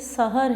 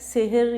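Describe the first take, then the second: First: The first vowel sounds like 'a', sahar. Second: The first vowel sounds like 'e', sehar. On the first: It means the time of early morning. The speaker calls it right. "ये सहर है" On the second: It means magic. The speaker calls it wrong. "सेहर या सहर नहीं है"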